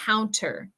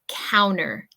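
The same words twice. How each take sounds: First: The T sound in the middle is pronounced. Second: The T sound in the middle is dropped. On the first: "In English, we just say counter" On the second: "with my pronunciation from Michigan, I usually don't pronounce the T"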